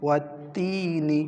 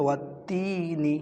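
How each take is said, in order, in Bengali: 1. স্বরটি ছোট এবং 'ni' দিয়ে শেষ হয়। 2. স্বরটি ছোট এবং 'ni' দিয়ে শেষ হয়।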